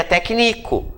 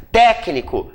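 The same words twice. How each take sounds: First: "técnico" said slowly as tec-NI-co; accent removed. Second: "Técnico" stressed on TÉC; accented first syllable. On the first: Teacher shows the word without accent, slowly stressed on NI. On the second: Teacher gives the accented word, stressed on the first syllable. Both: Shown as a demonstration. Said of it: "fica técnico".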